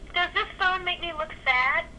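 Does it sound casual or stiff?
stiff. It sounds stiff, as if addressing a camera.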